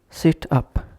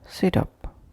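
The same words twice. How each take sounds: First: The two words are said as separate words. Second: The two words run together without a pause.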